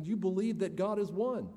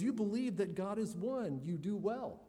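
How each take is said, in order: First: Said in the usual way. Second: Mocking, sarcastic scripture quote. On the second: Shown as a demonstration. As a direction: let the sarcasm drip. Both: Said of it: "you can sense James's sarcasm here".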